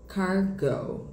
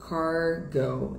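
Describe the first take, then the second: First: It is said with an American English accent. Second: It is said with an American English accent.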